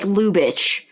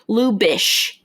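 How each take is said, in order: First: The name ends with a 'tch' sound. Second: The name ends with an 'sh' sound. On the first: This is how the spelling looks. "It it looks like Lubitsch" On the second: This is how the name is actually said. "but it's L U B I T S C H"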